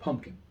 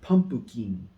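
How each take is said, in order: First: It is said with a native English accent. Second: It is said with a Japanese katakana accent. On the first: "if I said pumpkin" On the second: "if you're used to hearing pumpkin"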